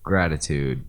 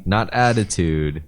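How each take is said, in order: First: Gratitude said lower as the right word; lower, firm gratitude, the right word; corrective stress. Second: Attitude said slow and stressed as the wrong word; contrast stress. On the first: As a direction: settle on gratitude as the correct one. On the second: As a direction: lean on attitude to set it against gratitude. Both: Shown as a demonstration.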